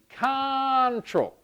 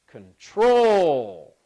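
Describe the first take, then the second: First: The stress is on the first syllable. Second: The stress is on the second syllable. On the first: The speaker calls it wrong. "that was the first syllable stress" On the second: The speaker calls it right. "If I stress the second syllable"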